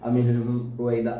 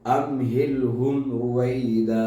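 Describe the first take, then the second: First: The throat consonants are blended into neighbouring sounds. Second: The throat consonants are pronounced clearly and separately. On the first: The speaker calls it wrong. "ഒരിക്കലും ... അങ്ങനെ രീതിയിൽ പാരായണം ചെയ്യരുത്" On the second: The speaker calls it right. "അത് വ്യക്തമാക്കി തന്നെ പാരായണം"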